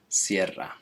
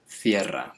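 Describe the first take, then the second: First: The word begins with an 's' sound. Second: The word begins with a 'th' sound. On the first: This is how it is said in Latin America. "in Latin America it's pronounced sierra" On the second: This is how it is said in most of Spain. "Cierra with a, th, a T H sound"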